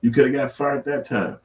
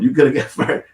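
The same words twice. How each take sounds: First: Said in the usual way. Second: Laughing through the words. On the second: Real, not acted. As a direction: breaks into a laugh mid-line.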